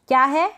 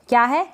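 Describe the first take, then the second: No difference in how they are said.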